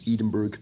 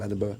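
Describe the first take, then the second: First: It is pronounced the way outsiders say it. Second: It is pronounced the way locals say it. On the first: The speaker lacks local knowledge. The speaker calls it wrong. "you'd say Edim- Edinburgh" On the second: The speaker has local knowledge. The speaker calls it right. "instead of Edinburgh"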